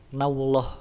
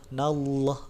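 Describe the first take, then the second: First: A w sound is added and the l is plain. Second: The l is thick and fills the mouth. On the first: The speaker calls it wrong. "cuma ditambah w dan l-nya tetap l biasa" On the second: The speaker calls it right. "lamnya jadi lam tebal"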